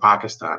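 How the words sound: It is said the way locals say it.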